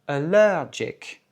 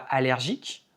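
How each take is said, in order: First: The stress is on the second syllable. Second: The stress is not on the second syllable. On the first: The speaker calls it right. "un accent tonique sur la deuxième syllabe" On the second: The speaker calls it wrong. "on ne dit pas allergique"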